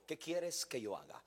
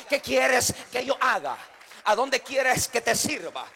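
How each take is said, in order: First: Much softer, humbled question; Saul, humbled on the ground, asks Jesus in a much softer voice; humbled plea. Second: Slow, louder, pleading offer; slow, louder plea to God to be sent to serve; earnest plea. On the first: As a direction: ask it softly, bowed and humble. Saul's humbled words, retold. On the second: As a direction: ask it slowly like a servant ready to obey. Voicing a surrendered servant's plea. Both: Acted.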